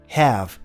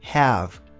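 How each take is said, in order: The two takes are said the same way.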